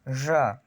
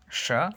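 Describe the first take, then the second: First: "Ya" said as zha, vocal cords buzzing; voiced zh. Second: "sha" with no vocal-cord buzz on the sh; voiceless sh. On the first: Teacher shows learners the vibration is there, voiced zh. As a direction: buzz the consonant of "Ya" like French j. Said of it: "las hay". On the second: Teacher has learners listen for no vibration, voiceless sh. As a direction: hiss the start of "sha". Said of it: "no hay vibración en mis cuerdas vocales". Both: Shown as a demonstration.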